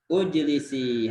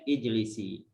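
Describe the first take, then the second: First: The first vowel is an u sound. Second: The first vowel is an i sound. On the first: The speaker calls it wrong. "baris hamzahnya benar enggak, Domah?" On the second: The speaker calls it right. "maka hamzahnya kasroh. Bunyinya ijlisi"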